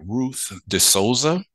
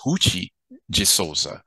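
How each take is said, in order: First: The name is said with an English pronunciation. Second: The name is said with a Brazilian Portuguese pronunciation.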